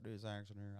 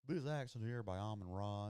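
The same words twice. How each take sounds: First: Said in the usual way. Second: A light Southern accent put on; imitating Southern accent. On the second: Streamer mimicking the player's Southern way of talking, light Southern accent. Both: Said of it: "if you could talk like that".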